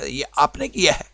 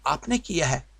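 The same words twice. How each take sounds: First: Put-on "ये आपने किया है" said as a doubtful question to a child; confirming tone, not a plain statement. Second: Said in the usual way. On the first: Shown as a demonstration. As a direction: ask "किया है" like you suspect them. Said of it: "जब आप ना ऐसा तलफ़ुज़ बोलेंगे". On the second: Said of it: "मिसालें लेते हैं".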